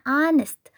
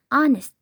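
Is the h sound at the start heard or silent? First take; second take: silent; silent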